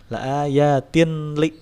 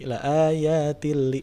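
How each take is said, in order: First: The n is pronounced clearly before the l. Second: The n merges fully into the following l. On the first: The speaker calls it wrong. "enggak enggak tin li" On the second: The speaker calls it right. "nun di tanwinnya tidak dibaca"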